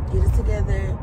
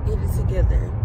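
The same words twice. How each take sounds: The two takes are said the same way.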